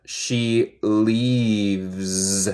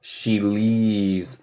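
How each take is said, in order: First: "She leaves." with "leaves" ending in a buzzed "z". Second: "She leaves." repeated with the buzzed "z"; repeat model. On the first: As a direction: lean on "leaves" and buzz its end. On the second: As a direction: say "She leaves." once more, clearly. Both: Shown as a demonstration. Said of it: "El S de abeja".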